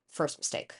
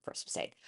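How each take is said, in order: First: Hushed first mistake; ominous whispered aside. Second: Even fainter whispered repeat; barely audible echo; whisper again. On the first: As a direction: drop to a breath for First mistake. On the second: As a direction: breathe the repeat almost silent. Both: Shown as a demonstration.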